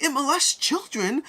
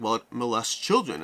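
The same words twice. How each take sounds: First: High, slow, drawn-out mock exasperation; hammed-up repeat. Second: Said in the usual way. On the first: Inventor repeating himself to the confused crowd, high mock exasperation. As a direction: spell it out high and slow for the slow listener. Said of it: "The guy's like". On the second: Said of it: "And he's like".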